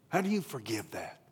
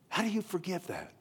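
First: Said in the usual way. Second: Much higher. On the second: Real, not acted. Repeated, pitched much higher.

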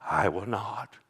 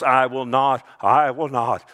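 First: Emphatic whisper; hushed repetition. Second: I WILL NOT, each time loud and firm; emphatic repetition. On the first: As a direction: drop to a low whisper. Third repeat drops to whisper. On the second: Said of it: "Emphatic in the Greek. Three times he goes". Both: Acted.

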